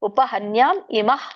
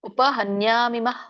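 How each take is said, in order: First: The two words are said separately, not linked. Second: The final m runs straight into the next vowel. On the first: "ಬಿಡಿಸಿ ಹೇಳ್ಬೋದು" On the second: "ಇದು ಕೂಡಿನೂ ಹೇಳ್ಬೋದು"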